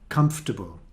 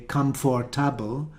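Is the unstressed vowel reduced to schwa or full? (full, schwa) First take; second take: schwa; full. First: The unstressed vowel is reduced to a schwa. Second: The unstressed vowel is said as a full vowel. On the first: The speaker calls it right. "or in the middle of a word" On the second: The speaker calls it wrong. "you don't say comfortable because the word must be a schwa"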